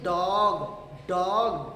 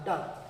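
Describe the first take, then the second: First: डॉग loud, with a long drawn O; डॉग leaning hard on the O; stress on the O. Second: डॉग short, weight on the D; डॉग with a quick vowel after a firm ड; force on the D. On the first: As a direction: stretch and push the vowel in डॉग. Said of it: "ओ पर जोर नहीं देना है". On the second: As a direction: say डॉग quickly, O cut brief. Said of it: "जल्दी से निकालेंगे". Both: Shown as a demonstration.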